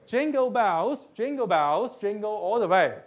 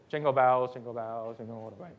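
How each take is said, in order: First: It is said in a cheerful, happy tone. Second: It is said in a tone lacking happiness. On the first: The speaker calls it right. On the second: The speaker calls it wrong.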